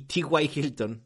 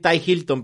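First: The first name is said as two letters. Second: The first name is said as one word. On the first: The speaker calls it right. "se escribe igual, pero se pronuncia diferente. La diferencia de los puntos" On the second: The speaker calls it wrong. "Ya le iba a decir Ty Hilton"

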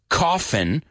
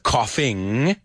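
First: The final G is dropped, ending in an n. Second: The final G is pronounced, ending in ng. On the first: "when you pronounce it that way, coffin" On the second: "instead of coughing"

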